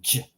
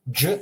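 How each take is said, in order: First: "j" soft with the tongue down. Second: "j" hard with the tongue up. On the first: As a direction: soften "j", lowering the tongue. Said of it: "Soft consonant, tongue down". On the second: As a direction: say "j" as in jungle. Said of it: "Hard consonant, tongue up". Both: Shown as a demonstration.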